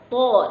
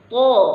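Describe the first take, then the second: First: The vowel is said with lips rounded forward. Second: The same.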